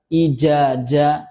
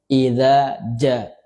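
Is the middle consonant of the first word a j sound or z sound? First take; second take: j sound; z sound. First: The first word uses a j sound, not z. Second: The first word uses a z-like sound. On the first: The speaker calls it wrong. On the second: The speaker calls it right.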